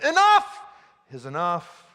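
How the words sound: The stress falls on the first 'enough'.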